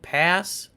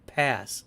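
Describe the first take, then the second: First: Tentative Pass, rising at the end. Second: Firm Pass, falling at the end. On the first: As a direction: Pass said with a rising, questioning tune. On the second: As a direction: Pass said lower and softer with a falling tune. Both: Shown as a demonstration. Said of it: "Rose Tico or The Hobbit?".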